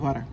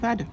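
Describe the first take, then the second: First: The middle consonant is an r-like sound. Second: The middle consonant is a plain d. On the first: The speaker calls it right. "بتتنطق فارا" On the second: The speaker calls it wrong. "فالعقل بيقول انها بتتنطق فادا، بس هي بتتنطقش كده"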